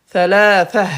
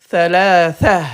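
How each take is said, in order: Both takes have the same delivery.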